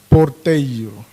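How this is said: It is said with a Mozambican Portuguese accent. "um moçambicano diz porteiro"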